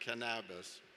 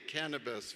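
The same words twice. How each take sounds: First: The stress is on a later syllable. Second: The stress is on the first syllable. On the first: "as opposed to Spanish" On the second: "the accent is on the first syllable"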